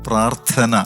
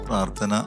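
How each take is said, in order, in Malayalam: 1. ഈ വാക്കിലെ ഓരോ ശബ്ദവും വ്യക്തമായി ഉച്ചരിച്ചിരിക്കുന്നു. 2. ഈ വാക്ക് അയഞ്ഞും വ്യക്തമല്ലാതെയും ആണ് പറഞ്ഞിരിക്കുന്നത്. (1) "പ്രാർത്ഥന എന്ന് തന്നെയാണ് അതിന്റെ പ്രൊനൗൺസിയേഷൻ" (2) "വെറുതെ അങ്ങോട്ട് പറഞ്ഞു വിടാതെ"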